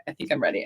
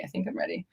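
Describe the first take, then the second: First: Said in the usual way. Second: Whispered. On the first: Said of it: "repeated rehearsal of the line". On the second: Shown as a demonstration. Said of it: "repeated rehearsal, now whispered".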